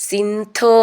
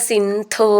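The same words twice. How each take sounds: The two takes are said the same way.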